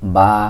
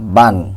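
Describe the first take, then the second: First: The syllable ends in a long vowel. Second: The syllable ends with an n sound. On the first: "দুই জবরে ওয়াকফ হলে এক আলিফ টেনে এক জবর পড়তে হবে" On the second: "বা দুই জবর বান"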